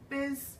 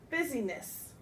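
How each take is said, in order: First: Two quick syllables, middle vowel dropped, a z sound. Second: Three separate syllables, with the middle vowel heard. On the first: The speaker calls it right. "one full sweep. It almost sounds like this" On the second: The speaker calls it wrong. "you want to pronounce it busyness"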